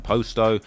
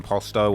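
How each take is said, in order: First: POSTO said "post-oh", long first O; long-O variant. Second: POSTO said "pahs-toe", open first vowel; open-vowel variant. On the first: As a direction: give Posto a long O in both syllables. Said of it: "people calling him Posto". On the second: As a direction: give Posto an "ah" in the first syllable. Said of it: "There's examples of people calling him". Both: Shown as a demonstration.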